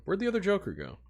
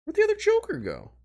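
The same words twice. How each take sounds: First: Said in the usual way. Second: Much higher, mock-whiny voice; very high mock-whine; exaggerated squeaky repeat.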